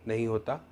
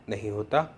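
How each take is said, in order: No difference in how they are said.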